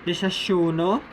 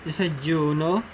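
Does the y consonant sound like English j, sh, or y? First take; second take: sh; j. First: The consonant sounds like English sh. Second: The consonant sounds like English j. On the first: "The S H-like sound" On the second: "The J-like sound"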